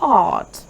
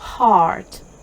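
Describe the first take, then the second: First: The r after the vowel is silent. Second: The r after the vowel is lightly sounded. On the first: "або британською heart" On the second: "теж читається як R"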